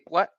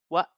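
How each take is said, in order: First: The final T sound is clearly pronounced. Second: The final T sound is dropped. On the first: "they might just say what" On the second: "but it sounds like what"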